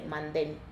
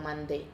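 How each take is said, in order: First: The word ends with a clear n sound. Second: The word ends on a vowel with no n. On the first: A Spanish reader says it. "alguien que lee en español dice mandén" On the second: A French speaker says it. "si soy francés digo mandé"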